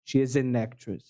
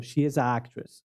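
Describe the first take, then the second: First: She is an actress with the N of an flowing straight into actress; linked an actress. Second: She is an actress said as if with a, a pause before actress; choppy separated article. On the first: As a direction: join an and actress with no break. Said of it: "Fica mais fácil de falar, mais rápido de falar". (she is an actress com o N de an ligado direto em actress) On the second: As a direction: break the line apart at the article, sounding odd. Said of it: "teria que ficar mais pausado". (she is an actress dito como a, com pausa antes de actress) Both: Shown as a demonstration.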